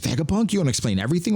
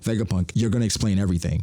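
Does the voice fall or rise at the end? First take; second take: rise; fall. First: It is a question, rising at the end. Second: It is a statement, falling at the end.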